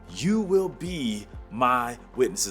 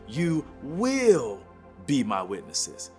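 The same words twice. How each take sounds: First: It is said plainly, without extra emphasis. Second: It is said with strong, forceful emphasis.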